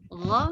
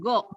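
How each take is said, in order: First: The first consonant is a rough throat friction sound. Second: The first consonant is a hard stop sound. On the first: The speaker calls it right. "Gha bukan go" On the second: The speaker calls it wrong. "tapi bukan go"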